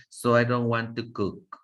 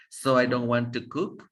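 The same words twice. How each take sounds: First: "cook" drops down and stops, closing the sentence; falling final tune. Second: "cook" lifted upward at the end, as if more words follow; wrong rising ending. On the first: Teacher models the correct falling "cook" for students. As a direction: bring "cook" down firmly to a full stop. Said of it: "pero ya se van a detener". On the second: Teacher shows students the wrong rising "cook". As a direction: let "cook" rise like the sentence continues. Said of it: "cook, no digan". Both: Shown as a demonstration.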